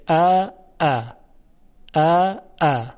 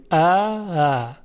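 First: ا، ا with two sharp, hard glottal stops; both hamzas full and hard. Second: ا، ا with the second hamza eased halfway toward alif; softened second hamza. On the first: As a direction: hit each hamza sharp and tense, no softening. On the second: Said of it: "یعنی اینطوری بگیم". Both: Shown as a demonstration.

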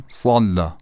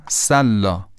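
First: سلا with a thick emphatic ص and a dark back a; سلا با صاد درشت; heavy ṣad. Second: سلا with an ordinary thin s and light a; سلا با سین معمولی; plain sin. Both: Shown as a demonstration.

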